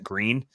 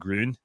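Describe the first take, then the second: First: It is said with a plain English 'ee' vowel. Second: It is said with a rounded German 'ü' vowel. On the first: This is how locals say the name. The speaker calls it wrong. "everyone here calls it Green" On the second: This is how the name would be said in German. The speaker calls it right. "the German pronunciation is something more like Grün"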